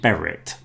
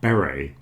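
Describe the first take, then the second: First: The final T is pronounced. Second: The final T is silent. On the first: The speaker calls it wrong. "we don't say beret" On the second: The speaker calls it right. "we say beret"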